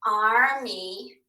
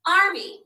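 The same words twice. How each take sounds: First: "Army" drawn out as two held syllables, ar, mee; slow, split reading of "Army". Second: Said in the usual way. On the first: Shown as a demonstration. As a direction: read "Army" one syllable at a time. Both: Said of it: "read syllable at a time".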